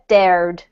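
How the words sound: It is said with a clear r sound. "U S, obviously, you just have the R coming through"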